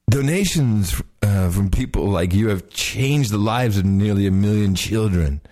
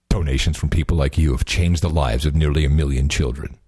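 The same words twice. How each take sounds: First: A slow, laid-back stoner voice. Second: A deep, heavy, robotic voice. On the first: The speaker calls it wrong. "Okay, stoner" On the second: The speaker calls it right. "You think I should be more robotic? ... the deep one"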